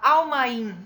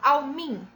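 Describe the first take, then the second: First: The two vowels are said as separate syllables. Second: The two vowels are merged into one syllable. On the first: The speaker calls it wrong. "Você não fala almain" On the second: The speaker calls it right. "você fala almin"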